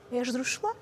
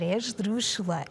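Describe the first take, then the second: First: ESDRÚXULA with a rising question tune. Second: ESDRÚXULA with a falling, settled end; confirming. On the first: Pretend. Teacher checks the answer with viewers at home, questioning. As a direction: ask "esdrúxula" unsure, lifting the end. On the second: Real, not acted. Teacher confirms the quiz answer to viewers, confirming. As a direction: state "esdrúxula" as the answer, tune going down.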